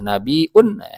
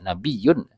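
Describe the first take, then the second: First: A glottal stop comes before the ending. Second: The y sound near the end is doubled. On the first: It comes from a word meaning news. "ujungnya bil hamzi dengan hamzah" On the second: It comes from a word meaning high rank. "bitasydidil ya'i dengan tasydidnya"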